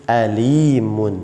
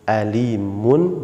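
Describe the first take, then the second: First: The second vowel sounds like i. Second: The same.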